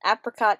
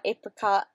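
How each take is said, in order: First: Apricot said as A-pruh-cot, short a. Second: Apricot said as AY-pruh-cot, long a. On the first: Comparing two ways to say a word, apricot with short a. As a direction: say apricot with the a as in cat. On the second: Comparing two ways to say a word, apricot with long a. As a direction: say apricot with the a as in ape. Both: Shown as a demonstration.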